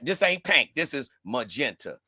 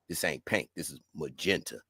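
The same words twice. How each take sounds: First: It is said in a normal voice. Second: It is said in a deep voice. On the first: The speaker calls it wrong. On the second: The speaker calls it right.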